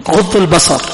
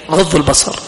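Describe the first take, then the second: No difference in how they are said.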